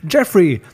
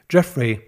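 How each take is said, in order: First: JEFFREY called loud and higher; eager shout of the caller's name; calling out. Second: Said in the usual way. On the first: A narrator's reading. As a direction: cry out the name on answering. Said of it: "rief Peter". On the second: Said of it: "stand auf seinem Display".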